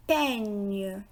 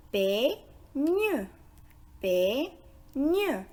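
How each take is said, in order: First: Said in the usual way. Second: "Peigne" split in two, pei, gne; syllable by syllable. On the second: Shown as a demonstration. Teacher breaks "Peigne" down for learners, syllable by syllable. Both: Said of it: "est composé de deux syllabes".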